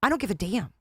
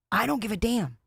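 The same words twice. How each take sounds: First: Said in the usual way. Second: "don't" leaned on, falling hard at the end; emphatic repeat. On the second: Real, not acted. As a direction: repeat it firmer, stressing "don't".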